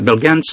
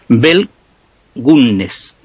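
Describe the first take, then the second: First: The name is said with an English accent. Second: The name is said with a Norwegian accent. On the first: "con acento inglés ya Bell Gans" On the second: "Te lo pronuncio al estilo que está escrito, al estilo noruego"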